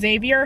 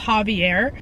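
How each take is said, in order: First: The name begins with a Z sound. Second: The name begins with an H sound. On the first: The speaker calls it wrong. "I've been saying it wrong this whole time" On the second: The speaker calls it right. "His name is pronounced Javier"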